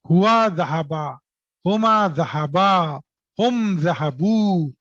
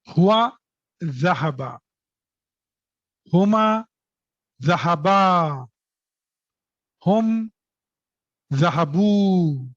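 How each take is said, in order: First: The words are read at a quick pace. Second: The words are read at a slow pace. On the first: "am I very fast?" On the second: "I will go slow"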